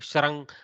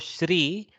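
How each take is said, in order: First: The sound after 'sh' is a syllabic r. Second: The sound after 'sh' is an i vowel. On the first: This is the actual pronunciation. The speaker calls it right. "Try to go Shrang ... There is no A. There is no E. There is no U" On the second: This is how speakers in the north say it. The speaker calls it wrong. "don't go Shri. Shri is kind of the northern accent"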